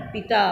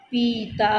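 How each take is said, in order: First: पिता with a quick, short इ. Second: पीता with a long, drawn-out ई. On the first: Teacher showing children the short इ in पिता. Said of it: "इस पर छोटी ई की मात्रा लगाएंगे तो क्या हो जाएगा". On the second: Teacher showing children the long ई in पीता. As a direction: stretch the ई in पीता. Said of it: "बार बार उच्चारण कीजिए और ई तथा ई". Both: Shown as a demonstration.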